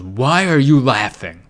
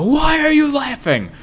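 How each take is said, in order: First: A slow, hammed-up dad rebuke; slow, mock-offended dad voice; slow mock dad anger. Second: A future father losing it, pitched up high; shouting dad, voice cracking high; high mock dad yell. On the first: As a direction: drag it out like an offended father. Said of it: "after everyone laughed at him, he goes". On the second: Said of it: "I'm gonna go".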